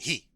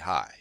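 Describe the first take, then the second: First: The syllable sounds like English 'he'. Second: The syllable sounds like English 'high'. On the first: The speaker calls it right. "They say he" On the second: The speaker calls it wrong. "We say hi"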